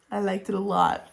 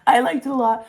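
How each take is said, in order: First: Said in the usual way. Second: Louder, punchier; emphatic. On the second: Real, not acted. Reviewer insisting she enjoyed the sequel, emphatic. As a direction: say it with conviction.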